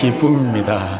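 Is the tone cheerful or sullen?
cheerful. It is said cheerfully, with a smile.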